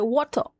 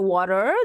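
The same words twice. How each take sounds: First: The r at the end is dropped. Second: The r at the end is sounded. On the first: This is how the British say it. "दे दे से वाटर, उनके वहां में आर नहीं लगता है" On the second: This is not how the British say it. "They don't say वाटर"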